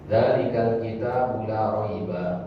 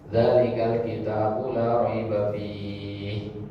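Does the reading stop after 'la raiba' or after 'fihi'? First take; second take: after raiba; after fihi. First: The reading stops right after la raiba. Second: The reading stops right after fihi. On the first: The book is one without doubt. "Kalau kita wakafnya di sini ya" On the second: There is no doubt in the book. "kita wakafnya di fihi sekarang"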